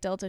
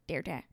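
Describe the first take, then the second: First: The middle consonant is a clear L sound. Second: The middle consonant is an R-like sound. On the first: "instead of saying like Delta" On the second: "she goes like Derta"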